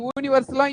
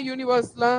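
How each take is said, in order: First: యూనివర్సలా begun with a pure "oo", no y-glide; యూనివర్సలా mispronounced with "oo" for "yoo"; wrong vowel onset. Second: Said in the usual way. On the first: Shown as a demonstration. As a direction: say యూనివర్సలా as "ooniversala". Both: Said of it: "యూనివర్సల్".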